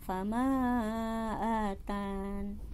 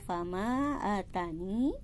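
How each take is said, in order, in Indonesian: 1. Kata itu berakhir dengan bunyi 'n' yang tertutup. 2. Kata itu berakhir dengan vokal 'ee' panjang. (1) "si huruf ya-nya dihilangkan" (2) "dengan huruf ya yang ditetapkan sebagai sukun mati"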